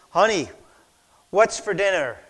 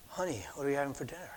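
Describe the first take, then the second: First: Calling out louder across the kitchen. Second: Barely audible, quick and soft; said really soft. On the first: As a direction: raise the voice to be heard. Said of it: "So finally he goes". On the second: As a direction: murmur it fast, hardly above a breath. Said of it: "he said it really soft". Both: Retold or imitated.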